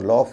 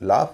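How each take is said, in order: First: The vowel is a rounded 'aw' sound. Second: The vowel is an open 'ah' sound. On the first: The speaker calls it wrong. "इसे लॉफ या ऑन्ट नहीं कहेंगे" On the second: The speaker calls it right. "इसमें ए यू का उच्चारण आ होता है"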